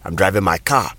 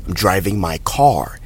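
First: Ghanaian English, with car said as "ka"; Ghanaian English accent. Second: American English, final R of car clearly heard; American accent. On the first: Teacher demonstrating a sentence, Ghanaian English accent. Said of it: "in the Ghanaian English accent". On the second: Teacher demonstrating a sentence, American accent. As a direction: sound the R in car, American style. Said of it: "in the American accent". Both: Shown as a demonstration.

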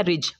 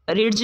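First: "रिज" with only the j sound; silent d. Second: "रिड्ज" with a separate d before j; wrong pronunciation. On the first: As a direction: drop the d from "रिज". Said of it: "इसको पढ़ना है". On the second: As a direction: sound the d in "रिड्ज". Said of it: "नहीं पढ़ना". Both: Shown as a demonstration.

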